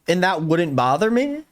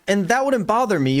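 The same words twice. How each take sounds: First: "And that wouldn't bother me" thrown back as a rising question; incredulous echo. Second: Said in the usual way. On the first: Retold or imitated. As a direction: quote "bother me" back in disbelief, pitch lifting at the end. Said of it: "Did you just say". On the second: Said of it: "I love this quote. Zeke says".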